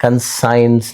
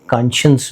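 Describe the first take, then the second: First: कंसाइंस said as kan-SIGNS, with a long "sai"; the mistaken reading कंसाइंस, "science" in the middle; कंसाइंस, sounded like "con-science" with "sai"; wrong pronunciation. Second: कॉन्शियंस said KON-shuns, "sh" in the middle; the right way: कॉन्शियंस, stress on the first syllable; कॉन्शियंस as KAN-shəns, no "sai"; correct pronunciation. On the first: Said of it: "कॉन्शियंस बोलेंगे इसको". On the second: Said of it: "कंसाइंस नहीं है ये". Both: Shown as a demonstration.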